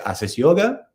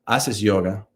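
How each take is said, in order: First: The pitch rises at the end like a question. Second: The pitch falls at the end like a statement. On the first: It asks whether the person does yoga. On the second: It states that the person does yoga. "Not a question"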